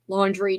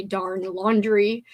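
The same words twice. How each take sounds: First: Said in the usual way. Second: "darn laundry" dragged out slowly with a rise on "laundry"; weary, slow complaint: "darn laundry"; slow, drawn-out grumble at "laundry". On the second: Shown as a demonstration. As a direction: groan the word "laundry" slowly, rising at the end.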